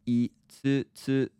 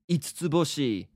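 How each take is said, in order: First: The word is said slowly. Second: The word is said at normal speed.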